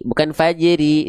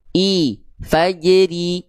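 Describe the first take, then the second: First: Fajri with a muddy unclear i; wrong fajri. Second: Fajri drawn out slowly with a crisp ri; stretched fajri. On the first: Teacher showing the wrong way to read fajri. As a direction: say fajri with a lazy vowel. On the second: Teacher modelling the correct kasroh vowel, slow and exact. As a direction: say fajri slowly with a clear thin ri. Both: Shown as a demonstration.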